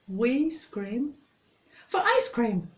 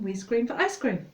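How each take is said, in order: First: It is said at a moderate, normal speed. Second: It is said faster again, quite quickly.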